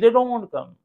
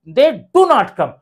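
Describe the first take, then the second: First: Contracted 'don't' said plainly without extra stress. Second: Full 'do not' with extra stress on 'do'. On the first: A simple general statement. "Simply generally" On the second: The speaker is sure they never come. "डू पर थोड़ा सा stress देंगे, दबाव देंगे"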